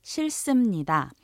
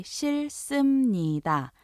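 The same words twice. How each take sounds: First: 싫습니다 said quickly at natural speed; 싫습니다 빠르게; faster repeat. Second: 싫습니다 천천히; formal Korean. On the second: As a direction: model 싫습니다 carefully. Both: Shown as a demonstration. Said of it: "you could also say".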